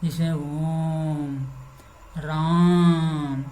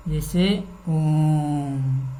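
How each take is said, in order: First: ओम and राम held very long and slow; drawn out om. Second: ओम held very long and slow; drawn out om. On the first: Teacher demonstrating prolonged vowels with ओम and राम. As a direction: stretch ओम and राम out to triple length. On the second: Teacher demonstrating a prolonged vowel with ओम. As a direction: stretch ओम out to triple length. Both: Shown as a demonstration. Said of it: "प्लुप्त स्वर को प्रकट करने के लिए".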